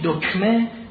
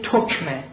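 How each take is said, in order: First: The word begins with a d sound. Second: The word begins with a t sound. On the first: "میگوید دکمه" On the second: "میگوید تکمه"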